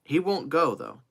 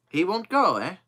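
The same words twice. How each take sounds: First: Raised pitch, firm falling close; confident assertion. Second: Higher, louder, sceptical echo; challenging echo. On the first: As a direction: state it as a settled matter. First statement, then echoed back. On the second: Joe answering Kennedy's doubt about the trip, challenging echo. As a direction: throw the words back as a challenge. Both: Acted.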